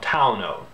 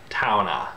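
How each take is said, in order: First: The word ends in an oh vowel. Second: The word ends in an ah vowel. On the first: The later pronunciation after the vowel shifted. "it may become towno" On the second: The older pronunciation keeps the final E. "it becomes a sort of ah sound"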